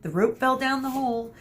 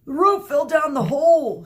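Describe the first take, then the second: First: High mocking echo; mimicking Theseus. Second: Loud, high dopey shout. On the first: Mino echoing Theseus to friends, high mocking copy. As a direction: parrot the dumb answer. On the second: Acted. Theseus shouting back to Medusa, loud dim-witted voice. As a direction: bellow it dimly. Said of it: "shouted Theseus".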